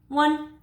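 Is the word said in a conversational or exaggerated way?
conversational. It is said in a plain, conversational way.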